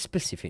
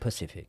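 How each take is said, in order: First: The word begins with an s sound. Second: The word begins with a p sound. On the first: The speaker calls it right. "it is specific" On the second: The speaker calls it wrong. "not Pacific"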